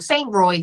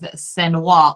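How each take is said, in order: First: The name is said with a plain English pronunciation. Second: The name is said with a French-style pronunciation.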